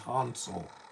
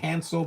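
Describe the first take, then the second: First: The name is said with a German pronunciation. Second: The name is said with an American pronunciation. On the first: "in in Germany they say Hansel" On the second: "We say Hansel"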